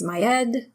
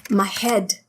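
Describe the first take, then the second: First: "head" said as 'ead; silent H. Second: Said in the usual way. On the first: Shown as a demonstration. Teacher showing the French accent, "head" without its H. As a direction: drop the H of "head". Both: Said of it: "H is not supposed to be pronounced".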